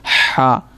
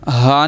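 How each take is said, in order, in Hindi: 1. h खरखरा है और गले के बीच से आता है। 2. h हल्का है और गले के नीचे से आता है। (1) "हलक के दरमियान" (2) "हा नहीं पढ़ना इसे"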